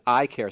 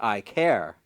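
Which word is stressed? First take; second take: I; care. First: The stress falls on the first word. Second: The stress falls on the second word. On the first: It sounds like eye doctoring. The speaker calls it wrong. "sounds like an optometrist" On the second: It names caring about people. The speaker calls it right. "put the emphasis on the second syllable"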